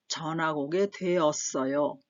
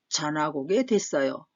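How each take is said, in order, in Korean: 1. 어미는 완전한 형태로 말해요: doe-eot-eoyo. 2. 어미는 한 음절 dwaet으로 줄어들어요.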